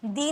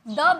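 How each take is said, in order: First: The vowel is long, like 'thee'. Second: The vowel is short, like 'thuh'. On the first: The speaker calls it wrong. "दी नहीं बोलते" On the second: The speaker calls it right. "द बिग Apple बोलते"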